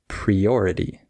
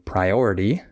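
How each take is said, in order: First: The first syllable has the 'pree' vowel. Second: The first syllable has the 'pry' vowel. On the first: The speaker calls it wrong. "maybe you say priority. And you just need to change the pre" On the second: The speaker calls it right. "Instead of uh, saying priority"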